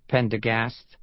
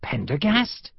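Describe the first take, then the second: First: Said in the usual way. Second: Higher, rising question on Pendergast; stunned, questioning Pendergast; astonished recognition. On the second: Acted. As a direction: say Pendergast in disbelief. Sergeant suddenly recognizes old friend.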